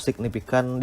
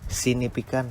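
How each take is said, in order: First: Said in the usual way. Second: "sinifikan" with the G dropped; mispronounced signifikan. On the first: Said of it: "diucapkan sinifikan". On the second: Shown as a demonstration. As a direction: swallow the G of signifikan, saying "sinifikan". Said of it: "Atau signifikan diucapkan sinifikan". ("sinifikan", salah ucap tanpa bunyi G)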